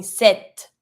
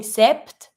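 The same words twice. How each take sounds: First: Sept said as "set"; silent P. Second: Sept mispronounced with both P and T; wrong sept ending in a pt cluster; wrongly sounded P. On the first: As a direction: drop the P in sept, keep the T. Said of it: "Imagine that there's no P". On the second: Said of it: "you don't pronounce the P". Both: Shown as a demonstration.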